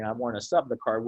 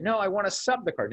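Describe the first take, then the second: First: Said in the usual way. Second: Mock-insistent coach, pitched up high; coach's demand. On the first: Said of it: "he's saying". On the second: Coach to referee over the card, higher insistent demand. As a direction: play the coach pushing back on the ref, higher. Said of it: "And then".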